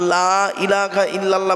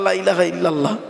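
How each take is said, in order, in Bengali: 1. বাক্যটি ধীরে ধীরে বলা হয়েছে, প্রতিটি অংশ স্পষ্ট। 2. বাক্যটি তাড়াহুড়ো করে বলা হয়েছে এবং শব্দগুলো দ্রুত একসাথে জড়িয়ে গেছে।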